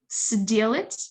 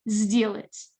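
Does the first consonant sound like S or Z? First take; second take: S; Z. First: The first consonant is an unvoiced S sound. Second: The first consonant is a voiced Z sound. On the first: The speaker calls it wrong. "it's not сделать" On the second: The speaker calls it right. "the S sounds like a Z"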